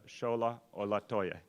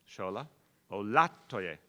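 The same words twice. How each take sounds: First: The stress in Olatoye is not on syllable two. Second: The stress in Olatoye is on the second syllable. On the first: The speaker calls it wrong. "I did it wrong again" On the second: The speaker calls it right. "Second syllable, I can do this"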